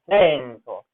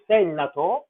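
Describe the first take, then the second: First: No extra vowel sounds between the n and t. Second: An extra vowel sounds between the n and t. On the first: The speaker calls it right. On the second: The speaker calls it wrong.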